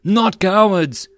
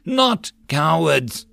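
First: Loud, high, slow chant of the whole squad; group rallying cry. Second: Slow, rousing call to the man beside him; urging rally cry. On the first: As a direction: roar it back together. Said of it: "the soldiers rallied the cry". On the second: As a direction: start the chant to stir them. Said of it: "urged him then". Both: Acted.

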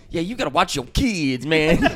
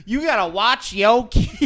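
First: High put-on Black American voice; imitated Black American accent. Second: Higher put-on Black American voice, laughing; mock Black American accent, drawn up high; imitated Black American accent. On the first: Bandmate retelling what the comic said, imitated Black American accent. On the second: Comic retelling last night's blurt to the room, imitated Black American accent. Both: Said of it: "the black voice".

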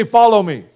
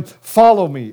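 First: Congregation call. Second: Said in the usual way. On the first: Shown as a demonstration. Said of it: "Everybody say". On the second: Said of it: "he said to him".

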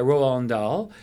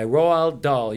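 First: "Roald" run unclearly into "Dahl"; mispronounced Roald. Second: "Roald Dahl" slowly, as ROH-ald DAHL; careful pronunciation. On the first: Host fumbling author Roald Dahl's name, "Roald" mispronounced. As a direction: stumble over "Roald", blurring its ending into "Dahl". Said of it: "I always say that wrong". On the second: Host naming the author after correcting kids, "Roald" slow and careful. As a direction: take time over "Roald", keeping it apart from "Dahl". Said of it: "you just got educated there". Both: Real, not acted.

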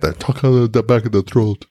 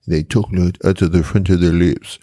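First: Mock Quebec French accent from the throat; French Canadian accent. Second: Mock French from France accent. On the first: Explaining how Quebecers talk, imitated French Canadian accent. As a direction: talk from the back of the throat, Québécois-style. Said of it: "whereas the French Canadians from Quebec". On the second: Explaining how the French talk, imitated French accent. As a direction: talk off the front of the lips, French-style. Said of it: "He said the French".

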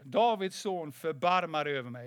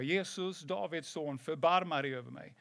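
First: Firmer, mildly raised call for mercy; retold louder calling. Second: Mild retold call for mercy; understated cry to Jesus, imitating the beggar. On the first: Silenced beggar calls harder to Jesus, retold raised call. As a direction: imitate the beggar calling out more insistently. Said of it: "han ropade bara ännu högre". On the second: Blind beggar calls to passing Jesus, restrained retold call. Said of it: "så började han ropa".

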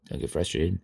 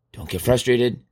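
First: Low, soft self-talk; self-calming. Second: Said in the usual way. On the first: Acted. Speaker calms himself over a bad coloring job, low and soft. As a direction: repeat it lower and quieter, to yourself. Talks himself down in his mind.

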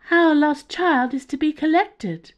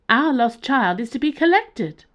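First: High, loud alien pronouncement; high-pitched alien. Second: High, loud alien, repeated insistently; high-pitched alien again. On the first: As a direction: announce it like a strange being from above. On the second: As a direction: insist on it as the same strange being. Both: Acted. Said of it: "in a high-pitched tone".

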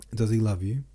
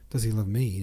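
First: Said in the usual way. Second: Gently incredulous, a pitying smile on ME; mildly condescending echo of the question; pitying repetition. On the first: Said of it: "Natasha repeated". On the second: A narrator's reading. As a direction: echo the question with ME stressed, as if it were obvious. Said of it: "repeated with a smile of pity at her friend's lack of comprehension".

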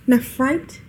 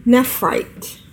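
First: "Nephrite" with a questioning rise at the end; "Nephrite?", rising as if checking the name; unsure second try. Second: Said in the usual way. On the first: Real, not acted. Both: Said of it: "or Neph-, Nephrite?".

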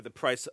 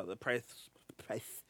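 First: Said in the usual way. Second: Soft lisped "price", the s slipping toward th; Tyson-like lisp. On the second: Real, not acted. Host stumbling over price point for his ribs, lisping. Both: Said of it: "Michael Tyson".

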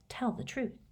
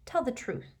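First: Quiet recalled command. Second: Ringing command. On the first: Retold or imitated. Riddle's remembered command to Dumbledore, commanding. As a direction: echo the earlier order. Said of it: "commanding tone he had used". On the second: Acted. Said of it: "with a ringing force".

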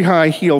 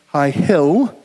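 First: "hill" drawn toward "heel" in a southern accent. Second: Said in the usual way. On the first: Real, not acted. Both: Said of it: "that's my southern accent coming out".

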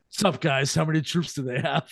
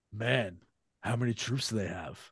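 First: Lightly voiced Southern California accent; casual Southern California dude, no English accent; a hint of laid-back SoCal accent; Southern California guy. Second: Put-on low, quiet American delivery with no accent; understated American actor, accent untouched. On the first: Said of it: "sounds like a guy from Southern California". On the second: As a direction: drop it low and soft in a plain American accent. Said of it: "No accent at all".

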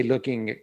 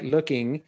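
First: A light hard G closing "looking"; G sounded in "looking". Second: Said in the usual way. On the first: Shown as a demonstration. Showing how Manchester speakers say it, G sounded in "looking". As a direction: say "looking" with an audible g at the end. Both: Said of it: "and you hear the G".

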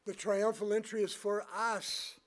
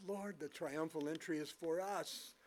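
First: "The triumphal entry is for us" proclaimed louder and higher; emphatic repeat. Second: Said in the usual way. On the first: Real, not acted. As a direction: drive home "for us" with a raised, forceful voice. Repeats it with more force.

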